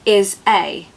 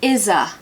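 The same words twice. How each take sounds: First: The two words are separated by a break. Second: The two words are blended with a Z. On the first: The speaker calls it wrong. "you're not going to say is a" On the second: The speaker calls it right. "you're going to blend them together"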